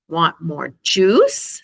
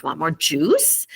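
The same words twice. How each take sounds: First: Slow, drawn-out juice with a rising end; drawn out "Want more juice?" with juice rising; stressed and exciting. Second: "juice" lifted like a question; rising on juice. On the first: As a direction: stretch out "juice?" and lift it at the end. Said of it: "saying a little bit louder ... making it sound exciting". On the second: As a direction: stress juice and rise at the end. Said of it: "raise your intonation at the end like it's a question". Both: Shown as a demonstration.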